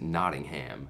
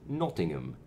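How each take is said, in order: First: It is said in an American accent, ending 'ham'. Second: It is said in a British accent, ending 'um'. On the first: "we Americans would pronounce it" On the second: "a British person would pronounce it"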